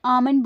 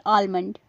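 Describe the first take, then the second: First: "आमंड" as AA-mund, no l; correct pronunciation. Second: "आलमंड" with a clear l, AAL-mund; wrong pronunciation. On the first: Teacher saying how it should be said, "आमंड" as AA-mund. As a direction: drop the l in "आमंड". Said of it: "इसे आमंड बोलना चाहिए". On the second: Teacher showing what to avoid, "आलमंड" as AAL-mund. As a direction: sound the l in "आलमंड". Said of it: "ना कि आलमंड". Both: Shown as a demonstration.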